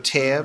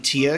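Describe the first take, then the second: First: The vowel sounds like the one in 'air'. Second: The vowel sounds like the one in 'ear'. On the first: It means a rip that opens something. "it's also a tear because it rips open a gateway" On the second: It means a drop of water from the eye. "It could be Tear because it's water"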